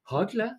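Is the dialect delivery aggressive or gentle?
gentle. It is said in a softer, refined Bergen dialect. The word refers to a music duo. "Det var for det er 2 bergensdialekter"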